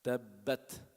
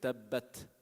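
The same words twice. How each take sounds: First: The final t is released with audible air. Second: The final t is released with audible air.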